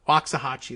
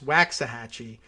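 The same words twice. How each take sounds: First: The first syllable does not sound like 'wax'. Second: The first syllable sounds like 'wax'. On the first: The speaker calls it wrong. "like that. Uh, which is how I would have pronounced it" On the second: The speaker calls it right. "But wax, like earwax"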